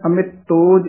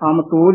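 First: A short 'i' vowel follows the 'm' sound. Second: No vowel follows the 'm' sound. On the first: The speaker calls it right. "ਇਹ ਵੀ ਪਦ ਕੱਸ ਕੇ ਉਚਾਰਨ ਕਰਨਾ ਹੈ" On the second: The speaker calls it wrong. "ਅਮਤੋਜ ਨੀ ਕਹਿਣਾ ਹੈ"

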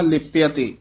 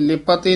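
First: The first word ends with an e vowel. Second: The first word ends on a bare consonant. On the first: The speaker calls it right. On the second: The speaker calls it wrong. "ਇਹ ਲਿਪ ਅਤੇ ਨਹੀਂ ਕਹਿਣਾ"

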